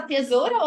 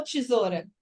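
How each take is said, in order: First: "tesoura" with hard t and full e, te-ZO-ra; clear-e tesoura. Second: "tesoura" starting with a chi sound, tchi-ZO-ra; softened-t tesoura. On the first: ("tesoura" com te bem pronunciado) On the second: ("tesoura" com som de tchi) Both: Shown as a demonstration. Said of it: "Você fala tesoura ou tesoura?".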